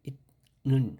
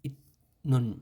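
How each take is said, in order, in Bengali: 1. প্রথম অক্ষরটি ত ধ্বনি দিয়ে শেষ হয়। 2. প্রথম অক্ষরটি ত ধ্বনি দিয়ে শেষ হয়।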